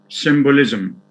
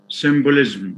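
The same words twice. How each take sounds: First: A short schwa is heard between z and l. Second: No vowel is heard between z and l. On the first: The speaker calls it right. "There is a schwa after the z sound" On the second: The speaker calls it wrong. "some students uh, tend to say symbolism"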